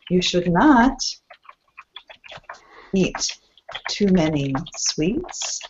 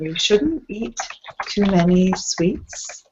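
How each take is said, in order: First: 'Should not' is said as two full words. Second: 'Should not' is contracted to 'shouldn't'. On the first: "or you should not eat too many sweets" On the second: "this is one version with contractions"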